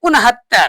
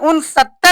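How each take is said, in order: First: The second part begins with an h sound. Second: The second part begins with an s sound. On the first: "सा को हमने क्या पढ़ दिया? हा" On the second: "सत्तर से एक कम"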